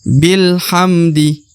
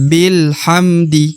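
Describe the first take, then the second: No difference in how they are said.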